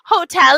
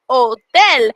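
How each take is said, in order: First: The H at the start is pronounced. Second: The H at the start is silent. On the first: "spelled the same from English to Spanish" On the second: "because we don't say the H"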